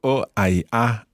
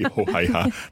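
First: The h is silent at the start. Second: An h sound is pronounced at the start. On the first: The speaker calls it right. "So o hai ha" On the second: The speaker calls it wrong. "we don't say ho hai ha. That's what Santa Claus"

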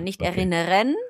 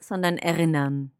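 First: The final R is clearly sounded. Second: The final R is nearly silent. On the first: The speaker calls it wrong. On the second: The speaker calls it right. "it's best if you don't really pronounce the R at the end"

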